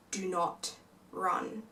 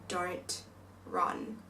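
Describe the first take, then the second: First: Slow, hushed warning; tense whisper. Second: Breathy, barely voiced plea; urgent whisper. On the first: Retold or imitated. Sister grips her sibling and whispers a slow warning. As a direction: drag it out under your breath, frozen still. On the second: Sister holding a wrist, pleading in a whisper not to run. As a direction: hiss it softly while holding them back.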